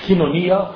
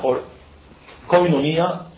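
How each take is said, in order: First: The first syllable has a plain 'ee' vowel. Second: The first syllable has an 'oy' vowel.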